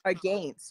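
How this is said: Against is said with a Canadian pronunciation. The speaker calls it right. "nothing wrong with the way that I say against"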